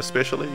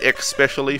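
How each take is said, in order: First: The word begins with an 'es' sound. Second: The word begins with an 'ex' sound. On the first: The speaker calls it right. "for especially" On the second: The speaker calls it wrong. "people say especially"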